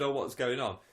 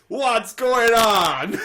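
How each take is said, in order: First: It is said in a plain normal voice. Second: It is said in an imitated put-on voice.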